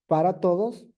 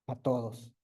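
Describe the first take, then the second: First: The word para is said in full. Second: The word para is cut short to pa. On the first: The speaker calls it right. "en vez de nosotros de decir para todos" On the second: The speaker calls it wrong. "¿cómo decimos? ... Estamos omitiendo"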